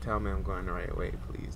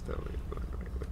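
First: Said in the usual way. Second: Soft fast whisper to himself; quick whispered repeat; whispered plea. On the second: Real, not acted. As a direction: breathe the plea almost silently. Repeats plea under breath.

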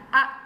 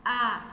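First: "a" said short, one beat; short vowel. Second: "a" drawn out over two beats; long vowel. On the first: Teacher contrasting two vowel lengths, short "a". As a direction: keep "a" to a single quick beat. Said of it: "trên là a và dưới là". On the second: Teacher contrasting two vowel lengths, long "a". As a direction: hold "a" twice as long. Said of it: "mình sẽ phải kéo dài". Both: Shown as a demonstration.

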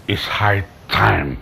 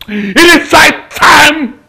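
First: Very low, slow and soft; grim resolve. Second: Slow, raised, drawn-out declaration; shouted resolve. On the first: Betrayed uncle resolving to end it, grim resolve. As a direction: pronounce it slowly under the voice. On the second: Betrayed uncle resolving to end it, shouted resolve. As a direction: lift it high and stretch each word. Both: Acted.

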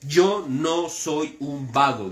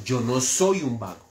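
First: "Yo no soy un vago" drawn out slowly, each word weighed; slow it right down and lean on "yo"; solemn slowed repeat of "Yo no soy un vago"; slow emphatic repeat. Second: Said in the usual way. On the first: Shown as a demonstration. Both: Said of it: "repeated slower for emphasis".

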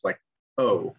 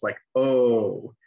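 First: Short O, clipped and brief. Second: Long O, held twice as long. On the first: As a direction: say O quickly, normal length. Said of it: "a vowel that takes the normal amount of time to pronounce". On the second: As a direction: stretch the O out to double length. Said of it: "a vowel that takes twice as long to pronounce". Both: Shown as a demonstration.

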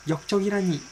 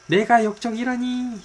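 First: High, hammed-up cry of dismay; theatrical disbelief. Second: Much higher and louder, 내가 punched; outraged cry. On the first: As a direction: wail it, high and stagey. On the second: Acted. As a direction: build it into a hammy outraged yell. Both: Theatrical outburst at betrayal.

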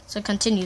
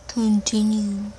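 First: Said in the usual way. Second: CONTINUE stretched out slowly; drawn-out repeat. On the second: Pretend. Boy urging his friend on, slow drawn-out Continue. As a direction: draw out every syllable of Continue.

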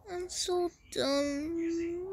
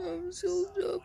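First: Mock sulking. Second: Hammed-up fake sob, higher; mock crying. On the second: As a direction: whimper it like a pretend cry. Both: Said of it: "You can see I'm crying".

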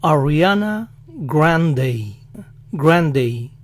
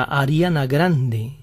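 First: "Ariana Grande" as "ah-ree-AH-nuh GRAHN-dey"; American "Grande" ending in gliding "ey"; English pronunciation. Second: Said in the usual way. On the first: Shown as a demonstration. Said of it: "con E al final". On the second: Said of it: "Ellos lo dicen así".

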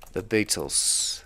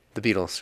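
First: Put-on terrible British accent. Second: Said in the usual way. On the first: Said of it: "probably a terrible accent".

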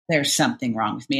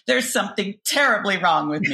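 First: Said in the usual way. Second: Dramatic. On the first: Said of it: "frankly, I thought that for many, many years". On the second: Shown as a demonstration. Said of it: "when I was feeling particularly dramatic".

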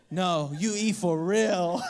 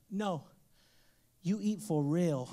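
First: Put-on slow low kid voice through laughter; stern toddler, laughing. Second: Slow, low little voice insisting; stern toddler. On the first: Dad laughs as he again voices his son's low, slow order. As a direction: insist slowly while laughing. Son repeats demand. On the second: Retold or imitated. Toddler son orders dad to really eat the leaf, low and slow. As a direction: lower and slow, dead serious kid.

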